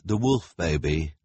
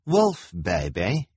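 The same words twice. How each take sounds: First: Said in the usual way. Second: Put-on "Wolf baby" drawn out as a question; questioning repeat. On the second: A narrator's reading. Kevin repeating the introduction, questioning. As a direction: repeat "Wolf baby" slowly, rising at the end. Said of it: "Kevin repeated".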